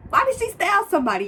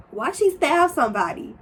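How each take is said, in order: First: Much higher, louder and faster; outraged disbelief. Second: A touch louder and higher, imitating shock; retold disbelief; shocked question. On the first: Retold or imitated. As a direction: squeal the question in disbelief. Repeats it more shocked. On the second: Retelling her own shocked question.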